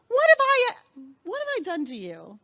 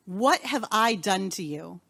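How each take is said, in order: First: Put-on a parent asking a child what they did; exasperated parent. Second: Said in the usual way. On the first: Shown as a demonstration. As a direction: scold like a fed-up parent, then trail off. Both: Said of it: "Now be a parent. Give me a rephrase".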